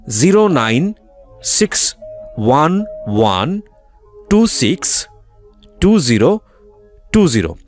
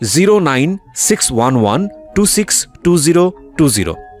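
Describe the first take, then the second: First: The number is read slowly. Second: The number is read at normal speed.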